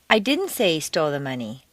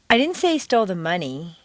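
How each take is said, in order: First: The stress is on the word didn't. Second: The stress is on the word money.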